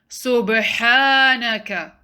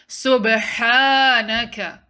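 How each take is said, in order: The two takes are said the same way.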